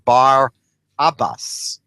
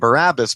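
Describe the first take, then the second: First: The name is said as two separate parts. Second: The name is said as one run-together word. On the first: It means the son of the father. The speaker calls it right. "really the correct pronunciation would be Bar Abbas" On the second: This is the common way readers say it. The speaker calls it wrong. "most Christians or most readers pronounce his name Barabbas"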